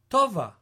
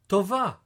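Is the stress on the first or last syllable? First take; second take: first; last. First: The stress is on the first syllable. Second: The stress is on the last syllable.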